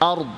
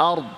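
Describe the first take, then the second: Both takes have the same delivery.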